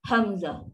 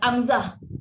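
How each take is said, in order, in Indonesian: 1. Kata ini dimulai dengan bunyi h yang berdesah. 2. Kata ini langsung dimulai dengan vokal. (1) "Depan tu kalau kita eja tu h" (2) "Amzah tu salah"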